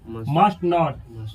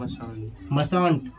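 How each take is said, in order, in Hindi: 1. यह दो पूरे शब्दों की तरह बोला जाता है। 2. यह एक छोटे किए हुए शब्द की तरह बोला जाता है। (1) "अगला है मस्ट नॉट" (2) "इसको क्या पढ़ा पढ़ा जाएगा मसंट"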